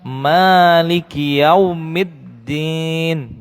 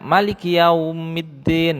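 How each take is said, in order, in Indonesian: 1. Vokal pertama ditahan panjang. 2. Vokal pertama diucapkan pendek. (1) "tapi dia panjang" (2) "Jangan dipendekkan, jangan dibaca Maliki yaumiddin"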